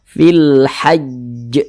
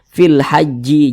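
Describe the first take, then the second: First: The final consonant is doubled, then released with a bounce. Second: The final consonant is followed by an added i vowel. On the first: The speaker calls it right. "ditasydidkan dulu baru dipantulkan" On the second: The speaker calls it wrong. "jangan dibaca seperti ini. Fil haji jangan"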